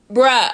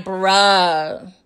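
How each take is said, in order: First: One short, punched "Bruh"; short emphatic disbelief. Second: Low, long-stretched "Bruh"; drawn-out disbelief. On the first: Reacting to Saxe telling Jenny, short punched disbelief. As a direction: drop "Bruh" quickly after a stunned pause. Repeats it short after a pause. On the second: Reacting to Saxe telling Jenny, low drawn-out disbelief. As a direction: drag "Bruh" out low, unimpressed. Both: Retold or imitated.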